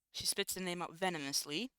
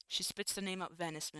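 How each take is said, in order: First: "venomously" said in full, all four syllables; careful corrected "venomously"; corrected reading. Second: "venomous-" cut off unfinished before the ending; broken-off misreading of "venomous-"; misread word. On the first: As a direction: fix the word, saying "venomously" cleanly. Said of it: "excuse me". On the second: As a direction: stumble and stop on "venomous-". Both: Real, not acted.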